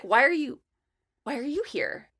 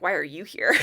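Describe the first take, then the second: First: Imitating a careful, higher-pitched restart; tactful puzzlement. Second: Lower-pitched mock question breaking into laughter; blunt puzzlement. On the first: Old coworker puzzled to see her at event, tactful. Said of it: "trying to find a nice way of saying". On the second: Guest translating old coworker's real meaning, bluntly amused. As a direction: say the undiplomatic version, amused. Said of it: "find a nice way of saying, like".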